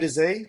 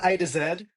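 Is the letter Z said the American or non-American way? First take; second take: American; non-American. First: The letter Z is said the American way. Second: The letter Z is said the speaker's local way. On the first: This is how people in the States say it. "they say A to Z as well" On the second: This is how it is said where the speaker is from. "where I'm A to Z"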